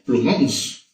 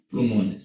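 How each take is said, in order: First: Plumons, the deliberately wrong plural with just an S tacked on; Plumons, plu-MONS, the mistaken form that only adds S. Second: Plumones, with the full es ending, plu-MO-nes; plumones, stressing MO and sounding the final es; correct plural. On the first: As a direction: say Plumons as the wrong plural a pupil might give. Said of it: "Sería así". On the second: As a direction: say plumones clearly as the right plural. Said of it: "lo vas a agregar es". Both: Shown as a demonstration.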